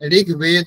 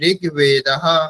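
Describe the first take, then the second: First: The word stops short with no final h sound. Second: The word ends with an audible h-like breath. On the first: The speaker calls it wrong. "ঋগ্বেদ নয়" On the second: The speaker calls it right. "বিসর্গের উচ্চারণ কিরকম হবে? হকারের মতো। ... ঋগ্বেদঃ এরকম বলতে হবে"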